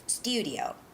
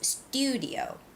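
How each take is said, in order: The two takes are said the same way.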